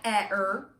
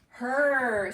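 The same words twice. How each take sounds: First: The H is split off from the vowel. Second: The word is said smoothly as one syllable. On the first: The speaker calls it wrong. "It's not H-er. That doesn't make sense" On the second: The speaker calls it right. "See how we don't hear the E?"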